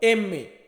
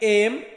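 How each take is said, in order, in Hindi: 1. अक्षर का नाम दो शब्दांशों में बोला जाता है। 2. अक्षर का नाम एक शब्दांश में बोला जाता है। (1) "ইতালিয়ান ভাষাতে আমরা বলবো এমএ" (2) "আমরা বলি এম"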